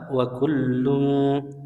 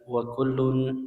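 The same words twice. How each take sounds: First: The l sound is thick and held. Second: The l sound is light and not held. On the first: The speaker calls it right. "yang benar wa kullun" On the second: The speaker calls it wrong. "Huruf la-nya kurang tebal. Jadi bukan wa kullun"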